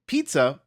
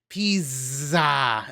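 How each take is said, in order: First: The middle consonant is a plain 'ts' sound. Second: The middle consonant is a buzzing 'z' sound. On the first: The speaker calls it right. "Instead of saying pizza" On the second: The speaker calls it wrong. "my grandma would say pizza. ... Why do you accentuate the Z's?"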